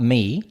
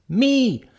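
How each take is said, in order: First: Said in the usual way. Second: "me" pitched very high, then falling; stress on ME. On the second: Shown as a demonstration. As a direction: punch "me" high as a correction. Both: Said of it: "not me".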